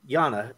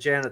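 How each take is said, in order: First: The name starts with a Y sound. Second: The name starts with a J sound. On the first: It is said the way its owner prefers. The speaker calls it right. "Yana is how she likes to pronounce it" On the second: It is read as written, the American way. The speaker calls it wrong. "I'm uh, very American, so I just read what's on the screen"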